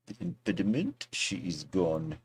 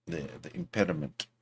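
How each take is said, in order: First: Soft, mock French accent. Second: Said in the usual way. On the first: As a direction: put on a light French accent. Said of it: "How's my French accent?".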